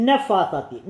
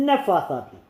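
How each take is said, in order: Both takes have the same delivery.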